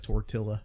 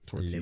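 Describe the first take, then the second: First: The word is said with a Canadian-style pronunciation. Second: The word is said with an ordinary pronunciation. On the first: The speaker calls it right. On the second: The speaker calls it wrong.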